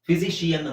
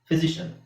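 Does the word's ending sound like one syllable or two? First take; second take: two; one. First: The ending is said as two syllables, 'shi-an'. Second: The ending is said as one syllable, 'shun'. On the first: The speaker calls it wrong. "ಫಿಸಿಷಿಯನ್ ಅಂತ ಹೇಳ್ತಾರೆ, wrong" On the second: The speaker calls it right. "ಶಿಯ ಅಲ್ಲ, ಶ ಶ ಶನ್"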